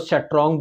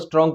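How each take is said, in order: First: It is said with a Kashmiri-style accent. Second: It is said in a standard pronunciation.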